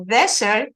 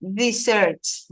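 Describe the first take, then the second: First: "Dessert" said like desert, DEH-sert; stress on first syllable. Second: "Desserts" stressed on the last syllable, dee-SERTS; stress on second syllable. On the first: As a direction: say "Dessert" with the first syllable strong, as for arid land. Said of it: "es desierto". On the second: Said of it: "Dessert es desierto". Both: Shown as a demonstration.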